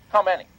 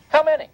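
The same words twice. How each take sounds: First: Said in the usual way. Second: "How many?" shouted, much higher and louder; indignant repeat. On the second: Real, not acted. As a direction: fire "How many?" back, demanding.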